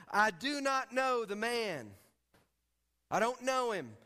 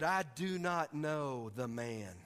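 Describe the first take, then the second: First: NOT stressed, higher and louder, slowly; emphatic denial. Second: "I do not know the man" said slowly at normal pitch, no push; quiet denial. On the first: Peter swearing he never knew Jesus, emphatic. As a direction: deny him hard, leaning on "not". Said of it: "began to curse and swear". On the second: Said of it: "Then he began to curse". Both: A narrator's reading.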